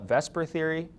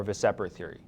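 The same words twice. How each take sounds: First: "vesper" said as VES-per, two syllables; mispronounced VSEPR. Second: "vesper" said as vuh-SEP-er, three syllables; correct VSEPR pronunciation. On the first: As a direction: swap the sounds so "vesper" is VES-per, S before P. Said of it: "that's not the way that the things are in order". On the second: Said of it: "it's not vesper theory". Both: Shown as a demonstration.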